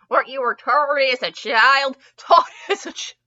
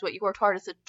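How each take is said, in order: First: Over-enunciated retake. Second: Said in the usual way. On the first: Real, not acted. Reader retaking a tripped-over line, over-enunciated.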